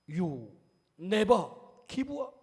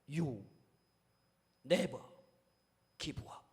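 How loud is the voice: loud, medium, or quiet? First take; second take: medium; quiet. First: It is said in a somewhat louder voice. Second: It is said in a very quiet voice. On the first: "조금 더 목소리를 높여서" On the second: "아주 작은 목소리로"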